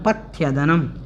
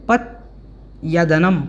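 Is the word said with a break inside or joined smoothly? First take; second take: joined; break. First: The whole word is said smoothly without a break. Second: There is a short break after the first part. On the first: "इस प्रकार से इसका उच्चारण हमें करना है" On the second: "इसको पथ थोड़ा सा बोलना है पहले"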